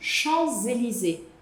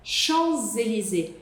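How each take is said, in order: The two takes are said the same way.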